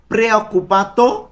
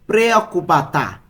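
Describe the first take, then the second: First: প্রেঅকুপাতো said higher, with a clear final "o"; masculine ending -o. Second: প্রেঅকুপাতা with a clear final "a", falling; feminine ending -a. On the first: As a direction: stress the closing "o" of প্রেঅকুপাতো, pitch lifted. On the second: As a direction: close প্রেঅকুপাতা on a distinct "a". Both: Shown as a demonstration. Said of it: "লাস্টে এ আর ও".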